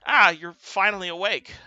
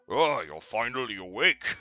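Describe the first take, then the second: First: It is said in the regular Gothy voice. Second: It is said in a put-on deep voice.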